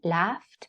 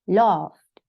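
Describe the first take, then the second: First: It is said in an American accent. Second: It is said in a British accent. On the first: "laughed in U S accent" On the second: "in British it's called, it's said laughed"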